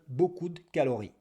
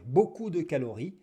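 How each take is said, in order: First: The vowel of 'de' is dropped, only 'd' remains. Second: The vowel of 'de' is fully pronounced. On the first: "on peut dire" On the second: "Au lieu de dire"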